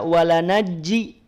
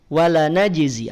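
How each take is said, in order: First: The middle consonants are both a j sound. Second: A j sound is followed by a z sound. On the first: The speaker calls it wrong. "tidak dibaca walanajji" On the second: The speaker calls it right. "di ujung lidah"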